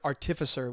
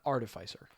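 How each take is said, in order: First: It is said in a posh British way. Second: It is said in an American way. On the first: "saying it a little bit more poshly" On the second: "the American way"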